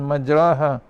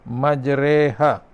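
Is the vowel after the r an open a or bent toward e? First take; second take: open a; toward e. First: The vowel after r is an open a. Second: The vowel after r is bent toward e. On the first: "tanpa imalah pun tidak mengapa" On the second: "ia ini secara imalah"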